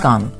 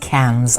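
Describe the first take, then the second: First: It is said like the Hindi word kaan. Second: It is said with an American pronunciation. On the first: The speaker calls it right. "but it's Cannes" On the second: The speaker calls it wrong. "I think that's probably how Americans say it"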